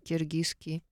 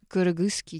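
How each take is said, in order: First: The first vowel is a soft, front 'и' sound. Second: The first vowel is a hard, back 'ы' sound. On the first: This is the new form, easier to pronounce. "удобнее произносить" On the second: This is the older form that was replaced. "слово «кыргызский» ... заменили словами «киргизский»"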